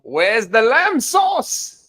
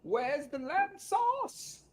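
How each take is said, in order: First: Loud, high, drawn-out mock chef yell; Gordon Ramsay. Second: Muted, very high, drawn-out mock chef yell; Gordon Ramsay. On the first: Ramsay fan quotes the chef's lamb sauce line, loud mock yell. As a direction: bellow it slowly like an irate chef. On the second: Ramsay fan repeats lamb sauce line, muted high mock yell. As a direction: yell it slowly in a small high voice, held back. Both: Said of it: "Gordon Ramsay".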